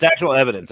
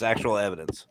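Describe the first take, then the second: First: Actual punched louder and held; stress on actual. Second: Said in the usual way. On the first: Real, not acted. Host teasing viewers about ghost audio, louder stress on actual. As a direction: lean hard on the word actual.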